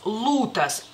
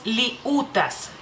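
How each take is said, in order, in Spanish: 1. La L es dura, sin sonido i. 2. Se oye un sonido i después de la L. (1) "sería como más dura la L" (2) "Si se pronunciara, diríamos liutas"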